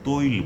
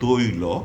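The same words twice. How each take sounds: First: The word ends on the bare final consonant. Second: The word ends with a final 'o' vowel. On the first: The speaker calls it wrong. "আমরা এটাকে কিন্তু তৈল বলি না" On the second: The speaker calls it right. "আমরা বলবো তৈল"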